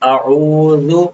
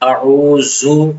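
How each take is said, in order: First: The middle consonant is said soft, not hard. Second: The middle consonant is said hard, like z. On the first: The speaker calls it right. "सही तलफ़्फ़ुज़ है" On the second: The speaker calls it wrong. "दाल को सख्ती से पढ़ लेते हैं ज़ा की तरह"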